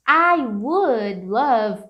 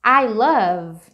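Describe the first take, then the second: First: Slow "I would love", "would" drawn out; conditional stressed. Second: Said in the usual way. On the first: Shown as a demonstration. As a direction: lean on "would". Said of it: "Can you see the difference". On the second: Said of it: "se você fala assim".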